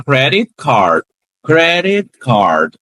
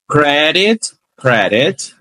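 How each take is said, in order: First: "credit card" with the T barely heard; T slides on. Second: "credit" with a clear final T; T fully said. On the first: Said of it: "não tem um som cem por cento". ("credit card" com o T quase sumindo) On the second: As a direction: say "credit" alone, T sounded. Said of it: "palavra isolada". ("credit" isolado, T completo) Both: Shown as a demonstration.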